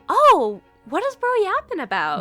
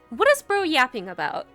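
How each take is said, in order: First: It sounds genuinely, earnestly curious. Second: It sounds dismissive, not curious.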